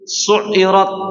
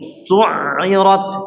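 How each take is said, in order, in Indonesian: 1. Bunyi ain dipotong tiba-tiba. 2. Bunyi ain mengalir sedikit. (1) "enggak langsung su'irat" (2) "setengah mengalir suaranya"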